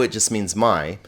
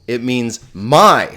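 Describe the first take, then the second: First: Said in the usual way. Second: "my" drawn out slowly and louder; emphatic, slowed-down "my"; stress on MY. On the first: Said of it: "So if I say mu, it just means my". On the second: Shown as a demonstration. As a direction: lean hard and long on "my" for emphasis.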